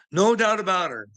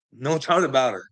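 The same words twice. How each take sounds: First: No doubt about her, said much higher; higher excited repeat. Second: Said in the usual way. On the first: Shown as a demonstration. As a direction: lift the second No doubt about her up high.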